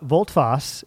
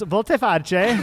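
First: The name is said with two short syllables. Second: The name is said with more than two syllables. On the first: The speaker calls it right. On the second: The speaker calls it wrong.

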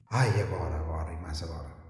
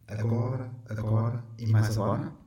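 First: It is said as a weary sigh. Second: It is said as a rising question.

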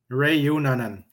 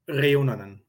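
First: The name starts with a plain English R. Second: The name starts with a rolled R. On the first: "That's the closest you'll get as an English speaker" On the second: "It's almost like you roll your R's"

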